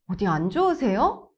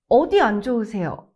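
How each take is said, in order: First: The pitch rises sharply at the end. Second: The first word carries strong stress. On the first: It sounds like starting a fight. "If you raise your tone too sharply at the end" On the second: It sounds like a doctor questioning a patient. "If you stress 어디"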